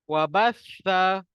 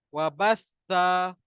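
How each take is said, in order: No difference in how they are said.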